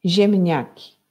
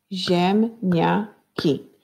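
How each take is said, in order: First: Said in the usual way. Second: Ziemniaki slowly, in three separate syllables; split into syllables. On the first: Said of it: "dzielić na sylaby i na głoski". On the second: Shown as a demonstration. Teacher divides picture names for pupils, Ziemniaki syllable by syllable. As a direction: break Ziemniaki into ziem, nia, ki with clear gaps. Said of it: "dzielić na sylaby".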